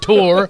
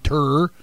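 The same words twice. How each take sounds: First: The word has a Philadelphia pronunciation. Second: The word has a Texas pronunciation. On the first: The speaker calls it right. "He goes on tour" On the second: The speaker calls it wrong. "Springsteen doesn't go on tour"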